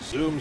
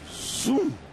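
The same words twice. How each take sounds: First: The word is said in a low-key, understated way. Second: The word is said with exaggerated, hammy energy. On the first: The speaker calls it right. "the subtleness of it" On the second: The speaker calls it wrong. "there should be a little more zoominess"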